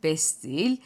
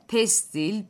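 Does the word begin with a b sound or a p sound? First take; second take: b; p. First: The word begins with a b sound. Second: The word begins with a p sound. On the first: This is the Kastamonu dialect form. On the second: This is the standard Turkish form.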